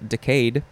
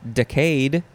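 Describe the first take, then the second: First: The stress falls on the second syllable. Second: The stress falls on the first syllable.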